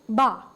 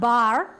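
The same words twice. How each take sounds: First: The word ends in an open ah sound, no R. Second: The word ends with a clearly sounded R. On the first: The speaker calls it right. "It's bar" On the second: The speaker calls it wrong. "Not bar"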